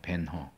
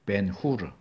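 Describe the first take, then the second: First: The name ends with a short 'heo' sound. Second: The name ends with a two-syllable 'hu-reu' sound. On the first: This is the English-style pronunciation. "영어식 발음을 하니까 그런 거고" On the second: This is the original Hebrew form meaning son of Hur. "그건 히브리어죠"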